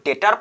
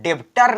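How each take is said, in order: First: No b sound is heard before the t. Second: A b sound is heard before the t. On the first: The speaker calls it right. "इसको केवल डेटर पढ़ेंगे" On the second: The speaker calls it wrong. "इसको डेब्टर नहीं पढ़ेंगे"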